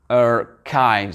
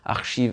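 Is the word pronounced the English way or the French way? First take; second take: English; French. First: The word is pronounced the English way. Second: The word is pronounced the French way. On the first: "en anglais ça va être, ... archives" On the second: "on l'a prononcé en langue française"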